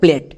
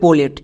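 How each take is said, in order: First: The p and l sounds are blended together. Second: An extra vowel separates the p and l sounds. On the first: The speaker calls it right. "আর যদি নিয়ম অনুযায়ী করি তাহলে প্লেট" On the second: The speaker calls it wrong. "আমরা যদি ভেঙে করি তাহলে হবে পোলেট"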